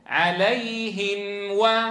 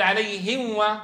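First: The nasal hum on the m is held fully. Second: The nasal hum on the m is cut short. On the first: The speaker calls it right. "الأصل أن تقول" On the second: The speaker calls it wrong. "بعض الناس يقول"

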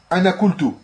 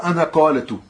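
First: The verb has a short u vowel, no alif. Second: The verb keeps a long a vowel, the alif. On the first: The speaker calls it right. "T'as tu dis anakultu" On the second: The speaker calls it wrong. "Tu dis pas anakaletu. Ça se dit pas"

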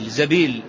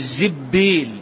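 First: The first vowel is a and b is single. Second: The first vowel is i and b is doubled. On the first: "إذا فتحت خففت" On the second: "وإذا كسرت شددت"

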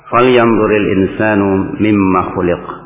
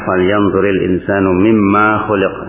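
First: The final vowel of mimma is short. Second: The final vowel of mimma is long. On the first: This is the standard, widely transmitted reading. The speaker calls it right. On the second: This is a rare, irregular reading. The speaker calls it wrong. "Ada yang baca panjang, tapi itu dikatakan qira'ah syadzah"

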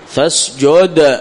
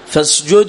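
First: The d has a strong echo at a stop. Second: The d has a light echo, flowing onward. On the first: The reader stops on this word. "فاسجد مثلا الآن كبرى" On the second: The reader continues without stopping. "مثل مثل هذا الآن فاسجد له"

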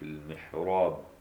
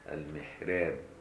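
First: The r sound is heavy and thick. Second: The r sound is light and thin.

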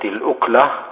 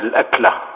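First: The first vowel is a rounded 'u' sound. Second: The first vowel is an open 'a' sound. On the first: A single morsel that one lifts to the mouth. "وبضم الهمزة" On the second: A single meal eaten at one time. "بفتح الهمزة"

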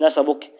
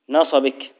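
First: The b is not followed by an i vowel. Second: The b is followed by an i vowel. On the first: The speaker calls it wrong. "مش نصبك" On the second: The speaker calls it right. "على قدر نصبك بكسر الباء"

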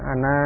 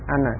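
First: The final vowel is drawn out long. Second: The final vowel is cut short. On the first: The speaker calls it wrong. "Bukan ana" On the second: The speaker calls it right. "tapi pendek, ana"

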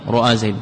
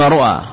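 First: The second consonant carries a long a vowel. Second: The second consonant carries no vowel at all. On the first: "فتح ما قبلها حينئذ قلبت ألفا" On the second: "الذي هو الإسكان"

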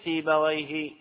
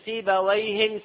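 First: The word ends without an added n sound. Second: The word ends with an added n sound. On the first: It refers to one known, specific person. "سيبويه هذا المعرفة" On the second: It refers to any person with that name. "سيبويهن من هو نكر"

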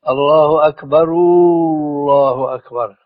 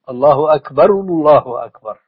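First: The final vowel is stretched into a long oo. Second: The final vowel is a short rounded u. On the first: The speaker calls it wrong. "أنا الآن أنطق فيها خطأ" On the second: The speaker calls it right. "بدون مد، لكن لابد من ضم"

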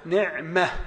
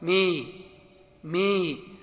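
First: The last syllable has a clear open a vowel. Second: The last vowel sits between a and i. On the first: "الميم مفتوحة" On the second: "لا ما ولا مي مي، هذه إمالة"

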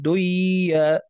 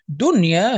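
First: The n sound is merged into the y. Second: The n sound is kept before the y. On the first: The speaker calls it wrong. "فلا نقول" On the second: The speaker calls it right. "لكن ليس فيها إدغام"

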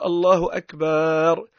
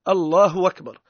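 First: A long a is added before the final r. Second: The glottal stop before the second word is dropped. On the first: "يحط ألف بينها وبين الراء" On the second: "الهمزة ذيك ينحاها وكأنها همزة وصل تولي"

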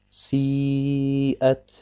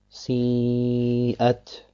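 First: The long vowel is free of nasal sound. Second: The long vowel is mixed with nasal sound. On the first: The speaker calls it right. "müssen rein sein von dem Nasallaut" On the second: The speaker calls it wrong. "mit dem Nasallaut zu verbinden"

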